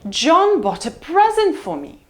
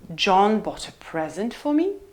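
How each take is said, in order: First: The pitch falls from high to low on present. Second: The pitch rises from low to mid on present. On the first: "Let's try high fall" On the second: "Low rise"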